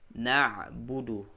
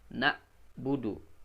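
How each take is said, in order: First: The middle consonant is a mid-throat ain. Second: The middle consonant is a low glottal stop. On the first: The speaker calls it right. "jadi ain di tengah" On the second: The speaker calls it wrong. "Bukan ke bawah tenggorokan. Jadi hamzah"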